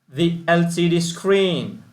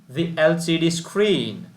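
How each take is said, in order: Both takes have the same delivery.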